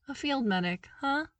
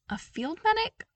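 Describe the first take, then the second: First: Teasing, grinning "field medic, huh"; amused with a grin. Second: High, rising disbelief; surprised question. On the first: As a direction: smile through it, teasing. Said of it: "he said with a grin". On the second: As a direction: ask it in surprise, with a high rise on "medic". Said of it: "Oh, come on". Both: Acted.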